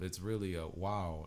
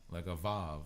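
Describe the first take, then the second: First: The letter name begins with a W sound. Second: The letter name begins with a V sound. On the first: The speaker calls it right. "It's really a wow, not a Vav in the original languages" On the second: The speaker calls it wrong. "They tried to change that to sounding like a V"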